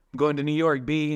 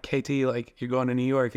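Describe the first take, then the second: First: Put-on playful New York accent. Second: Said in the usual way. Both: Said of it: "in a New York accent".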